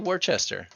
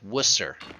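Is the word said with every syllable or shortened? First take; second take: every syllable; shortened. First: It is said in full, ending in "chester". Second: It is shortened, skipping the middle syllables. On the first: "Do you actually put the Chester on the end?" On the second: "You skipped all the letters in the middle"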